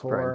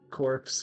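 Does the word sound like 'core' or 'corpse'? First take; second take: core; corpse. First: The word ends without any final consonant. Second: The word ends with a 'ps' sound. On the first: The speaker calls it right. "It's core" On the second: The speaker calls it wrong. "It's the word no one can say right"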